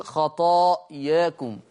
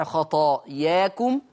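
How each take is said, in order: First: خطاياكم with the final alif tilted toward e; خطاياكم with a half-raised a; taqlil reading. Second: خطاياكم with open, unraised alif; خطاياكم with a plain open a; fath reading. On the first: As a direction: slowly recite خطاياكم with a slight lean toward e. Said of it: "وبالتقليل". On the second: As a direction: recite خطاياكم with a clean fath on the final alif. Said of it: "يقرأها بالفتح". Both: Shown as a demonstration.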